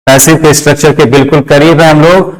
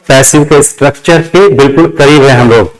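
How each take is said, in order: Both takes have the same delivery.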